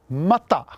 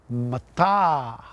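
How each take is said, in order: First: Both vowels are short. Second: Only the second vowel is long. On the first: It means raw. "Mata means raw" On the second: It means obsidian. "if you put a macron over the second A"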